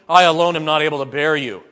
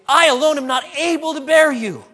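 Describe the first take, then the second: First: It is said in a weary, complaining tone. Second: It is said in an amazed, delighted tone. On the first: The speaker is burdened and frustrated by the people. The speaker calls it wrong. "as though Moses was complaining" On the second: The speaker marvels at how numerous the people have become. The speaker calls it right. "This is incredible"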